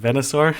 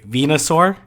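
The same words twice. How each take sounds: First: The first vowel is a short e sound. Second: The first vowel is a long ee sound. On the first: "as opposed to" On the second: "double E pronunciation"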